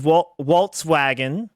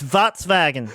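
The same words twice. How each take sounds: First: "Volkswagen" as English "Wolts-wagen", W at both parts; stumbling, slow "Wa-, Volkswagen" with W for V; wrong pronunciation. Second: "Volkswagen" as "Vots-vagen", with V sounds; slow corrective "Volkswagen", German-style V; correct pronunciation. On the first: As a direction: say "Volkswagen" slowly with English W sounds. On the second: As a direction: say "Volkswagen" slowly, V in place of W. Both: Retold or imitated. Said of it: "It's not pronounced".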